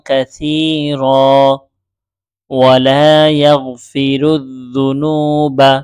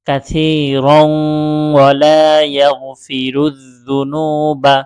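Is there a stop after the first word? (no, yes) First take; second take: yes; no. First: There is a stop after the first word. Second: The first word runs straight into the next. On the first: "কাসীর মিলিয়ে না পড়ে আলাদা করে পড়েছি" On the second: "মিলিয়েও পড়তে পারেন"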